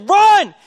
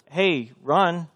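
First: "Run!" screamed, very high and loud; coach screaming. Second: Said in the usual way. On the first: Shown as a demonstration. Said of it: "He's like".

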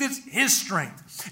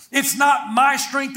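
First: "his" slow and weighty, dropping softer; stress on HIS. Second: "my" pushed high in a slow, raised line; stress on MY. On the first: Preacher crediting Christ's strength, "his" slow and stressed. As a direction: answer slowly, leaning on "his". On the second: Preacher denying it is own strength, "my" stressed high. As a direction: lean on "my" to set up contrast. Contrasts my with his. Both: Real, not acted.

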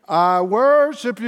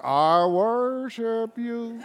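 First: Slow, sung-out worship line; sung, lift it like a hymn in church; singing praise. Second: Softer, very slow, reluctant and laughing; grudging mumble. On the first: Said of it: "You're gonna be singing". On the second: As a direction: mumble it like you don't mean it. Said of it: "You're gonna be saying". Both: Pretend.

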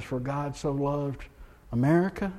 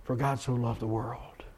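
First: Misquote the verse on purpose, leaning on America; mock misquote. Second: Softer, settled quote of the real verse; true verse. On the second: Pastor correcting the misquote, softer and sincere. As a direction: give the true words quietly, with conviction. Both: Shown as a demonstration. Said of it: "John three sixteen says".

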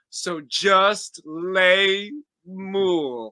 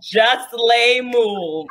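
First: Very slow, drawn out; slow drawn-out punchline. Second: Slow repeat. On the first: Pretend. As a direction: stretch out the last line. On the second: Real, not acted. Savoring the punchline.

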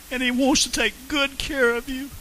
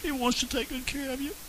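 First: Said in the usual way. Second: Much softer, gentle and reassuring; soft tender repeat. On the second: Real, not acted. Preacher tenderly reassuring listeners that Jesus cares, soft. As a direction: hush down and reassure them.

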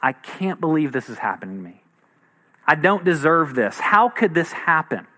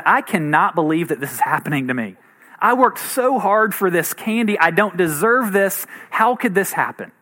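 First: Mild, hushed disbelief at the start; stunned disbelief. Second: Mock outraged child, emphatic on each phrase; hammed-up sense of being wronged; indignant kid. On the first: Retold or imitated. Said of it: "get the news that things have gone wrong". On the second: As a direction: imitate a kid's incredulous protest. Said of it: "had the attitude that basically said".

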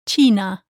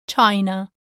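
First: China with a pure ee sound, chee-na; Spanish China. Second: China with the English eye sound; English-style China. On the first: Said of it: "In Spanish, the word China is". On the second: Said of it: "like in the English word". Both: Shown as a demonstration.

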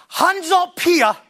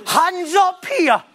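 First: Slow, drawn-out preacher call; hamming up a revival altar call; mock altar call. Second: Slow, drawn-out preacher call, a little higher; hamming up the altar call once more; mock altar call. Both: Preacher mocking an altar call to the congregation, drawn out slowly. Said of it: "am I mocking it".

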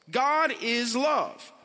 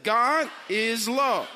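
First: God is love, each word slow and weighty; slow emphatic declaration. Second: God is love, louder, stress on God; louder emphatic repeat. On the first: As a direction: lean hard on God, slowly. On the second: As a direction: punch God, drawn out and loud. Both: Shown as a demonstration. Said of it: "Come on, say that".

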